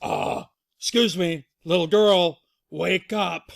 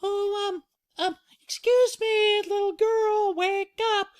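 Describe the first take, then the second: First: Loud, firm father bear; Papa Bear. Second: Very high falsetto, hesitant then louder; high polite motherly wake-up call; Mama Bear. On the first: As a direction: rouse the sleeper with a loud call. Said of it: "Papa Bear says". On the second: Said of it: "Mama Bear goes". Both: Acted.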